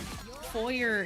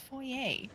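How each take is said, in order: First: It is pronounced with a Southern American accent. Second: It is pronounced the French way. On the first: "words that I say in a southern way. And foyer is one of those" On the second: "the part of my brain that actually understands French that goes, no, it's foyer"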